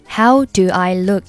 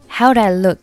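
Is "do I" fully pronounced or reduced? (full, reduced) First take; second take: full; reduced. First: The words "do I" are full and stressed. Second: The words "do I" are weak and reduced. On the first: The speaker calls it wrong. "而不是读成" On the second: The speaker calls it right. "通常把它弱读成do I"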